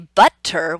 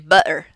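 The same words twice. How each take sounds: First: The t is said as a full t. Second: The t is replaced by a throat stop. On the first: The speaker calls it wrong. "We never say" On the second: The speaker calls it right. "we say"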